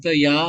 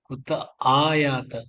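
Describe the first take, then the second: First: The syllable 'ya' follows 'kuta' with no 'aa'. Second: A long 'aa' is heard before 'ya'. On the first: The speaker calls it wrong. "குத்த யா வருது" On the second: The speaker calls it right. "ஆ தொண்டையில இருந்து வரணும்"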